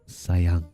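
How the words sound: It is said in a close, intimate way.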